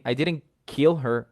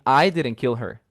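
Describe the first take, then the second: First: Kill stressed with a falling tune, a little slower. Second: I punched hardest, the rest lighter; stress on I. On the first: Teacher contrasting stress on kill with stress on I, kill stressed. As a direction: land hard on kill and drop after it. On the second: Teacher contrasting stress on I with stress on kill, I stressed. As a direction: hit the word I, then let "didn't kill her" fall away. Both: Shown as a demonstration. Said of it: "I'm stressing different words".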